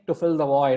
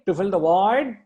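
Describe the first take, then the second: First: The phrase ends with a final, closing fall. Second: The phrase ends hanging, as if more follows. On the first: The thought ends here. The speaker calls it wrong. "I'm not saying to fill the void" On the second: There is something more to come. The speaker calls it right. "I'm not completing the sentence there"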